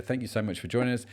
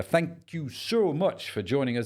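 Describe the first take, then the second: First: Said in the usual way. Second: Slow, higher goofy voice; silly put-on voice. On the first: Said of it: "don't know why I did that". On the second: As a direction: stretch out a daft, high sign-off. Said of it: "did that stupid voice".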